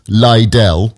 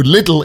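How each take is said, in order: First: Lidl said as "lie-dell", long i, stressed first; posh Lidl. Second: Said in the usual way. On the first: Shown as a demonstration. Host explaining his household's posh name for the shop, saying Lidl as "lie-dell". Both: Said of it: "to make it sound posh".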